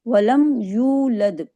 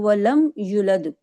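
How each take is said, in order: First: The vowel in the second word is drawn out. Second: The vowel in the second word is cut short. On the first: The speaker calls it right. "वाव साकिन के साथ है जिसको हमने दो हरकत खींचना है" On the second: The speaker calls it wrong. "दो हरकत नहीं खींचेंगे, या को सिर्फ पेश के साथ पढ़ेंगे"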